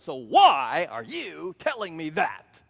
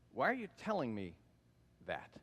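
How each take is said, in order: First: It is said in a sassy, confrontational tone. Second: It is said in a plain, neutral tone.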